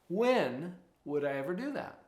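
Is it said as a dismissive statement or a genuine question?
genuine question. It sounds like a genuine, open question. The speaker really wants to find a time. The speaker calls it right. "Let's turn it back into a question"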